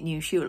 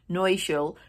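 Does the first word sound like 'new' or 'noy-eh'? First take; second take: new; noy-eh. First: The first word sounds like English 'new'. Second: The first word sounds like 'noy-eh', two syllables. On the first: The speaker calls it wrong. "I've been calling it New Schule all my life" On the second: The speaker calls it right. "I've just worked out how to say it correctly"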